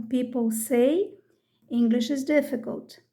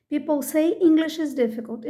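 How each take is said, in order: First: Slow, careful teacher read. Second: Said in the usual way. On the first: Shown as a demonstration. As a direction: spell it out slowly for learners. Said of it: "Inglês é difícil é ler a mensagem". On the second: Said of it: "Vamos ver um outro exemplo".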